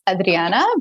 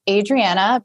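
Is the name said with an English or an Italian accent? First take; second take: Italian; English. First: The name is said with an Italian accent. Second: The name is said with an English accent.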